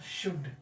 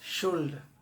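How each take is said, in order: First: The word is said without an L sound. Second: The word is said with an L sound. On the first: The speaker calls it right. "इसका शुद्ध उच्चारण" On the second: The speaker calls it wrong. "ये गलत, this is the wrong pronunciation"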